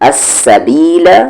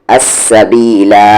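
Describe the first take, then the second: First: The word ends with a short or dropped vowel. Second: The word ends with a long 'a' vowel. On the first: The reading continues without stopping. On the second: The reader stops at this word.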